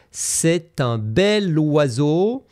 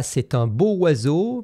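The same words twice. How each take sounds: First: "bel" slowed and rising, linked to "oiseau"; stress on bel. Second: "beau oiseau" as the mistake; "beau" said plainly before "oiseau", the wrong way; wrong form. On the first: Teacher modelling the right "bel oiseau" slowly. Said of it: "mais on dira". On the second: Teacher quoting the wrong "beau oiseau". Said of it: "on ne dira pas". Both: Shown as a demonstration.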